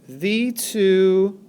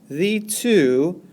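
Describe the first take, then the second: No difference in how they are said.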